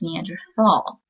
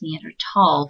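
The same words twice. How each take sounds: First: The middle consonant is a soft 'th' sound. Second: The middle consonant is a hard 't' sound. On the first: This marks the speaker as outside the scientific community. "there is a T H. It can be pronounced Neanderthal" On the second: This is how scientists say it. "correctly pronounced Neanderthal ... the T H is pronounced as a hard T"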